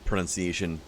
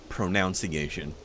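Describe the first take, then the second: First: The second syllable sounds like 'nun'. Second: The second syllable sounds like 'noun'. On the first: The speaker calls it right. "pronounces the word pronunciation" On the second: The speaker calls it wrong. "somebody mispronounces the word pronunciation"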